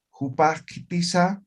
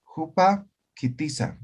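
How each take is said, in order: First: Jupa, quitiza flowing as one phrase with no cut; Jupa, quitiza linked smoothly, rising at the end; smoothly joined. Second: Jupa high, then a clear pause before quitiza; with a break. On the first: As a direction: glide Jupa into quitiza without a break. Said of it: "Allá se ha armonizado". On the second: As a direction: split Jupa, quitiza in two with a stop between. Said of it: "aquí hay un corte". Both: Shown as a demonstration.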